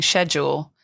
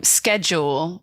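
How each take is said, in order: First: "schedule" as shed-yool; British "schedule". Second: "schedule" as sked-jool; American "schedule". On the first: Guest names the word they avoid, British sh pronunciation of "schedule". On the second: Guest shows how they say "schedule", American sk pronunciation. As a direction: say "schedule" with a hard sk at the start. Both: Shown as a demonstration. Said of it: "the American way of saying schedule".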